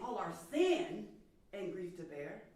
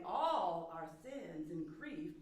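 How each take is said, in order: First: "sin" punched louder and stretched; slow, emphatic "sin" in the phrase; stress on SIN. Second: "All" lifted and drawn out; slow, emphatic "All" at the start; stress on ALL. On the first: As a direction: lean hard on "sin", ease off afterwards. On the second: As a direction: lean on "All", slowly finish the phrase. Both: Shown as a demonstration. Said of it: "to emphasize all or sin".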